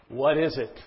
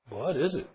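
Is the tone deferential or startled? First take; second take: deferential; startled. First: It sounds deferential and ready to obey. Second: It sounds startled and questioning. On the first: The speaker is ready to take orders. "I'm at your command" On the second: The speaker is alarmed by what he sees. "There's two ways to read that"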